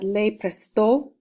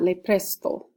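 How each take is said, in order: First: The stress is on the last syllable. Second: The stress is on the first syllable. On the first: The speaker calls it right. "make sure you accent that last O ... I should have said le presto" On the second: The speaker calls it wrong. "not le presto"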